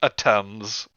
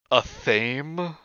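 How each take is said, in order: First: "A Thames" said like "a temz"; short E and hard T in "A Thames", falling evenly; corrected pronunciation. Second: "a thame" with a long vowel, rising in question; questioned pronunciation. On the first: Rereading the list after a friend's correction, "A Thames" as "a temz". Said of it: "Okay, so a Thames". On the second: Reading an unknown word off a list, "a thame" drawn out questioningly. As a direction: say "a thame" higher, tentatively, as one drawn-out word. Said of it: "So it's not pronounced as a tame?". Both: Acted.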